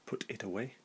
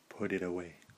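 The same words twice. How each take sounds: First: The T sounds are said as clear T sounds. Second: The T sounds become a soft flapped D. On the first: The speaker calls it wrong. "Not put it away" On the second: The speaker calls it right. "but put it away"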